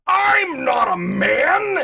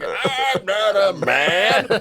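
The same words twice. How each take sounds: First: High, loud, drawn-out protest; indignant retold yell. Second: Hammed-up, high, loud protest; kids' mocking imitation. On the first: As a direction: wail it slowly in outraged protest. Retelling her friend's indignant reply. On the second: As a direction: drag out every word in mockery. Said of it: "pretending to do the walk of this person".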